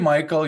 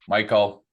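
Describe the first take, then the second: First: It is said in a bright, lively, cheerful tone. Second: It is said in a stern, flat monotone. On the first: The worker seems warm and engaged. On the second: The worker seems uninterested or burned out.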